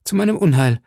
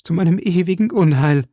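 First: Higher, louder lament on meinem; wringing hands. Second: Higher, louder wail peaking on ewigen; paroxysm of grief. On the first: Milady laments to Felton, rising despair. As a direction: begin the lament. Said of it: "rang Milady die Hände". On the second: Milady laments to Felton, peak of despair. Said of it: "als wäre sie von einem Paroxysmus des Schmerzes befallen". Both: A narrator's reading.

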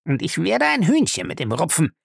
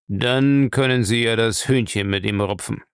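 First: High-pitched, seething threat; angry, through clenched teeth. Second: Lightly voiced old boss, unimpressed; frowning old master. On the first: Acted. Lacey threatens to settle with Featherstone, angry. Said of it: "stieß er zwischen den Zähnen hervor". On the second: Bellamy answers his hotheaded servant, frowning and controlled. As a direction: add it evenly with a frown. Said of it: "mit einem Stirnrunzeln fügte er hinzu".

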